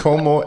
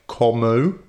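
First: The o vowels are short and pure. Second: The o vowels glide like English vowels. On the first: The speaker calls it right. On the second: The speaker calls it wrong.

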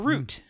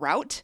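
First: The vowel sounds like the one in boot. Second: The vowel sounds like the one in out. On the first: The speaker calls it right. "Nope, it's a paper route" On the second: The speaker calls it wrong. "the vast majority of people pronounce the word root incorrectly"

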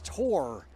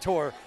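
First: The word is said with a full, longer vowel. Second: The word is said with a shortened vowel. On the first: This is the way someone else insists it should be said. The speaker calls it right. "It's Tor" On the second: This is the speaker's own local way of saying it. The speaker calls it wrong. "I say Tor"

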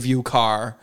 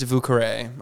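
First: The second word is said as plain 'car'. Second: The second word ends with an added 'ay' syllable. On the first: The speaker calls it wrong. "do not say Vue Car" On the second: The speaker calls it right. "It's Vue Carre"

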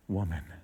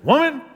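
First: The word is said in a gentle, respectful tone. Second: The word is said in a condescending, lecturing tone. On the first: The speaker addresses her with respect. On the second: The speaker is about to talk down to her.

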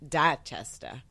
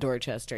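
First: The name is said in a Boston accent. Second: The name is said in a general accent. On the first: The speaker calls it right. "It's Dachester" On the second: The speaker calls it wrong. "it's not Dorchester. You don't pronounce it like that"

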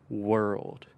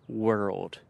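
Both takes have the same delivery.

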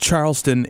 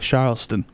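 First: The word is said in a plain accent. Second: The word is said in a Southern accent. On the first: "it's pronounced Charleston if you're not in any way inclined to do a Southern accent" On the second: "But I am, so I will say Charleston"

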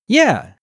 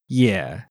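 First: The pitch falls sharply from high to low. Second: The pitch dips low and then comes up.

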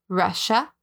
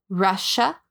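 No difference in how they are said.

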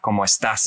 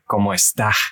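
First: The final s is clearly pronounced. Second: The final s is breathed out softly. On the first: "they don't really pronounce the S's like people in Mexico do" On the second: "They like breathe them"

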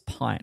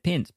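First: The vowel is long, as in 'pine'. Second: The vowel is short, rhyming with 'lint'. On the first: It names a measure of beer. The speaker calls it wrong. "the logo is like a beer. So it'd make you think that it's pint" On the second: It is short for PHP lint. The speaker calls it right. "he said pint because it's PHP lint"

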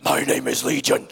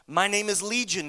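First: It is said in a dramatic put-on voice. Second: It is read in a plain voice.

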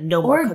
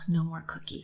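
First: It is said in a harsh, stern tone. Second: It is said in a gentle, warm tone. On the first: The limit is simply imposed. The speaker calls it wrong. "instead of" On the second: The limit holds, but the wish is accepted. The speaker calls it right. "you're going to say it in a way that says, and you're safe in your feeling of wanting one"

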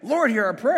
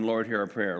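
First: It is yelled loudly with energy. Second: It is said in a polite flat monotone.

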